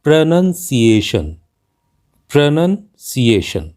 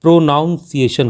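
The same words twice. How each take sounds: First: प्रोनंसिएशन slowly, as pruh-nun-see-ay-shun; correct pronunciation. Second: प्रोनाउंसिएशन with "noun" in the middle; common mispronunciation. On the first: Teacher modelling the word, slow correct pronunciation. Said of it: "जबकि इसका सही उच्चारण है". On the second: Teacher showing learners' habit, mispronounced with "noun". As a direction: say प्रोनाउंसिएशन as pro-noun-see-ay-shun. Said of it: "हम इसका अक्सर उच्चारण". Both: Shown as a demonstration.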